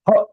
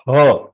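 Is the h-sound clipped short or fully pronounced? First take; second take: clipped; full. First: The h-sound is cut short, half pronounced. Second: The h-sound is pronounced fully and completely. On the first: The speaker calls it right. "So her is half. So it is pronounced as her" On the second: The speaker calls it wrong. "not her"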